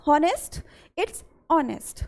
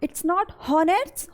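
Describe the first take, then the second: First: "honest" said as "onest", H silent; teacher gives the right "honest", no H sound. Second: "honest" said with a sounded H; teacher shows the wrong "honest" with an H. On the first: Teacher gives students the right way: "honest" with silent H. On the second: Teacher shows the wrong way: "honest" with a sounded H. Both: Shown as a demonstration.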